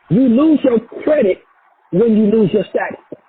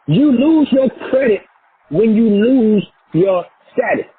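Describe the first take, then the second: First: It is said at a normal pace. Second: It is said very slowly.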